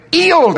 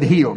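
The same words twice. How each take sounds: First: HEALED with the H dropped, English-style; high, loud English "'ealed"; English accent. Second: Said in the usual way. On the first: Retold or imitated. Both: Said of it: "That's how he said healed".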